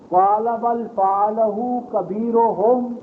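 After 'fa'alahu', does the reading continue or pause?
continues. It runs straight on without a pause. The great idol did it. The speaker calls it wrong. "اس کو یوں نہیں پڑھنا"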